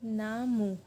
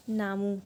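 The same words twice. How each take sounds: First: ना and मू drawn out as two separate syllables. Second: Said in the usual way. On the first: Shown as a demonstration. Teacher writing the word out for learners, ना मू syllable by syllable. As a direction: split it into ना, then मू. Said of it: "मैं इसको आपको दोबारा लिख के बताती हूँ". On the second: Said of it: "तो ये बन गया हमारा".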